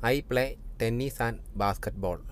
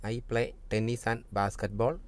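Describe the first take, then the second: The two takes are said the same way.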